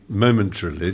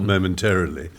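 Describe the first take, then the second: First: It is said the British way. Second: It is said the American way. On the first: The speaker calls it right. "you say momentarily" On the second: The speaker calls it wrong. "You've gone very American there"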